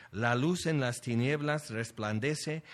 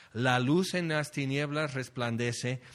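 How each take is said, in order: The two takes are said the same way.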